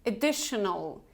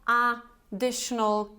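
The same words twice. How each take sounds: First: Additional starting with a weak "uh"; schwa in first syllable. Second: Additional with a full, separated "A"; wrong first vowel. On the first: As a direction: say additional as "uh-DISH-nul". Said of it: "it's additional". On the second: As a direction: mispronounce additional as "A... dishnul". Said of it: "it's schwa sound". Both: Shown as a demonstration.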